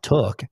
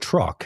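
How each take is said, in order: First: The word is said without any R sound. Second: The word is said with a clear R sound. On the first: The speaker calls it wrong. "It's not a tuk" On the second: The speaker calls it right. "it's a truck"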